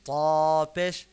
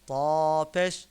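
No difference in how they are said.

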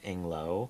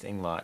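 First: The final T is silent. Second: The final T is clearly sounded. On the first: The speaker calls it wrong. "I thought that it was Inglo, but it's not" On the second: The speaker calls it right. "It is Inglot with a hard T"

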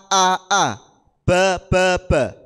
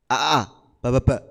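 First: The syllables are read at a moderate pace. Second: The syllables are read very quickly. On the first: The speaker calls it right. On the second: The speaker calls it wrong. "bacanya jangan terlalu cepat. Jangan"

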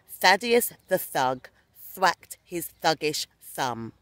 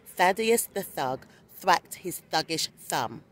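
First: It is said at a normal, steady speed. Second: It is said a little more quickly.

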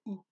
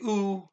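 First: The ooh sound is said very softly. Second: The ooh sound is said fully and loudly. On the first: The speaker calls it right. "it is pronounced oo, O-O, but very softly" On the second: The speaker calls it wrong. "you don't say ooh"

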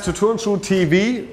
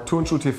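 First: The name is said with English pronunciation. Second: The name is said with German pronunciation.

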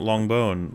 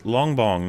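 First: The name ends with a 'bone' sound. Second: The name ends with a 'bong' sound. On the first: The speaker calls it wrong. "not Longbone" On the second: The speaker calls it right. "it's Longbong"

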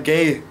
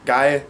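First: The vowel sounds like the English word 'gay'. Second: The vowel is the standard German 'ai' sound.

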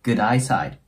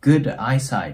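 First: The two words run together without a break. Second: The two words are said separately, with a break.

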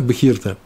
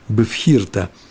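First: The consonant after the first vowel is a 'v'. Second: The consonant after the first vowel is an 'f'. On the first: "Но все признают" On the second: "я сказал бифхирта. Потому что дагеш уходит во второй буквы"

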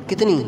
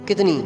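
The two takes are said the same way.

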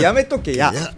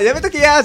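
First: The pitch drops down at the end. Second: The pitch stays high at the end. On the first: The speaker calls it right. "大阪はどうしても最後の言葉が下に下がっていくんですよ" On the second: The speaker calls it wrong. "やめとけやじゃなくて"

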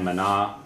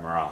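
First: The second consonant is sounded as an N. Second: The second consonant is sounded like an R. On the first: "You can either pronounce the N" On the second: "or you don't really pronounce it as an R"

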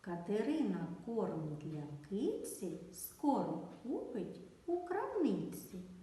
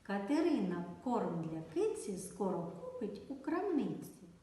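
First: The sentence is spoken slowly. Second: The sentence is spoken very fast. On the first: "Спочатку вимовляємо повільно" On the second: "А тепер дуже швидко"

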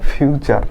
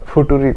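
First: The word is said with a ch sound. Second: The word is said with a t sound. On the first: The speaker calls it right. "ফুটুরি না ফিউচার" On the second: The speaker calls it wrong. "FUTURE অনেকে উচ্চারণ করে ফুটুরি"

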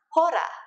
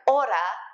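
First: The word begins with an audible H sound. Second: The word begins with a vowel, no H sound. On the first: The speaker calls it wrong. "is not hora" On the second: The speaker calls it right. "just like hora is not hora"

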